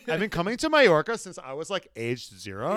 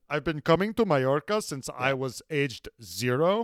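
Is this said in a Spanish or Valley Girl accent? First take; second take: Valley Girl; Spanish. First: It is said in a Valley Girl voice. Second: It is said with a Spanish accent.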